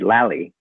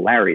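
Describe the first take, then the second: First: The R sound is replaced with an L. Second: The name is said with a normal R sound. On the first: "you just change your R's to L's" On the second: "you call Larry"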